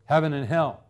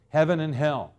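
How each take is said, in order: Both takes have the same delivery.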